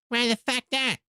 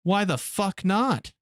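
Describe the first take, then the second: First: Much higher, squeaky cartoon kid. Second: Slow, a touch higher, lightly voiced cartoon kid; South Park quote. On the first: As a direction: snap it back like a bratty cartoon kid. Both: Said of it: "Fucking South Park".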